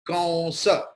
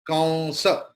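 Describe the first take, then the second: The two takes are said the same way.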